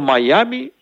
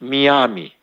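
First: The name starts with a 'my' sound. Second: The name starts with a 'mee' sound. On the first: This is the name as used in the United States. "Είναι το Μαϊάμι που έχουμε στις Ηνωμένες Πολιτείες" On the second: This is the local reading in the Cypriot dialect. "εμείς το κάναμε διαβαστικά Μιάμι"

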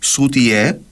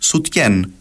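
First: The word ends on a vowel, without final n. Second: The word ends with a final n sound. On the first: This is how it is said in Cyprus. "χωρίς τελικό νι" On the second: This is how it is said in Greece. "με τελικό νι"

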